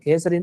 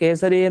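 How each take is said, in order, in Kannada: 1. ಕೊನೆಯ i ಸ್ವರವನ್ನ ಚಿಕ್ಕದಾಗೇ ಇಡ್ತಾರೆ. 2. ಕೊನೆಯ i ಸ್ವರವನ್ನ ಉದ್ದವಾಗಿ ಎಳೀತಾರೆ. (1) "ಹ್ರಸ್ವ ಅಂತ, ಅಂದ್ರೆ ಇಕಾರ, ಚಿಕ್ಕದು ಇಕಾರ" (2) "ಕೇಸರಿ ಅಂತ ದೀರ್ಘನೇ ಇದೆ ಅಂತ"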